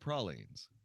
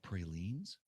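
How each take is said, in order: First: It uses the Louisiana pronunciation. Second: It uses a general, non-Louisiana pronunciation. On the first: The speaker calls it right. "which is the way you pronounce them" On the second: The speaker calls it wrong. "is he talking about pralines?"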